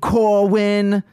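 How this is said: The name is said in a southern London accent. "Southern London? / That's what I'm doing"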